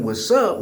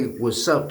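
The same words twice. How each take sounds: First: In-group greeting. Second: Average Joe greeting. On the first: Explaining how his community says hello, familiar in-group greeting. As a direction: greet your own people with "What's up". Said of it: "So we saying". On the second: Showing how an average Joe greets another person, ordinary greeting. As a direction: say "What's up" like a regular outsider. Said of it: "a regular average Joe". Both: Shown as a demonstration.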